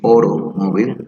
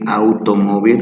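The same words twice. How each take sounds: First: The first vowel is an O sound. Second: The first vowel is not an O sound. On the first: The speaker calls it right. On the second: The speaker calls it wrong. "students say"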